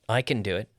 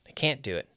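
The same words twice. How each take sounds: First: CAN passed over lightly, weight off it; unstressed CAN. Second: CAN'T as the main beat; stress on CAN'T. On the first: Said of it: "we don't normally stress the affirmative". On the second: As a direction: hit CAN'T, then fall. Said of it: "we stress the negative". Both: Shown as a demonstration.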